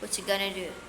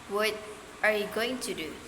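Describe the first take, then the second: First: Sounds are reduced and words run together. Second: Every word is said fully and clearly. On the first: "in conversation, they might hear... which can sound completely different" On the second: "a learner might be taught in the phrase"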